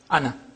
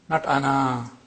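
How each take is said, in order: First: The final vowel is short. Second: The final vowel is long. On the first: The word is read within continuous speech. The speaker calls it right. "as if it is hamza plus noon fatha" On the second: The word is read in pausal form. The speaker calls it wrong.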